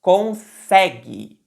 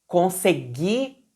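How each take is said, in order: First: "Consegue" slowly, the middle "se" strong with an open e; stress on middle syllable. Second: "Consegui" slowly, stress on the final "gui", rising at the end; stress on final syllable. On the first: Teacher showing students the stress of "Consegue", on "se". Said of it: "A sílaba tônica é o sé". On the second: Teacher showing students the stress of "Consegui", on "gui". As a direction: lean on the last syllable of "Consegui". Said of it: "reparem que até a sílaba tônica mudou". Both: Shown as a demonstration.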